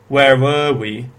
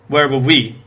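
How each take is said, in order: First: The word 'were' is stressed and strong. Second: The word 'were' is weak and unstressed. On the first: The speaker calls it right. "instead of" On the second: The speaker calls it wrong. "So I stressed the wrong word. I thought were was supposed to be weak there"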